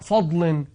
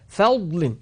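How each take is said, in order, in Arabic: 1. صوت f ثقيل ومفخم. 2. صوت f خفيف ورقيق. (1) "ما بنقول فضل" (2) "الفا لا تفخم"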